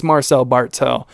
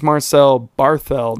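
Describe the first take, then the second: First: Bartel said with a plain t, no th; hard t in Bartel. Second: Barthel said with a th sound, as in thin. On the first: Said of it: "isn't that how you say it?". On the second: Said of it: "I think it's Marcel Bartel". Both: Shown as a demonstration.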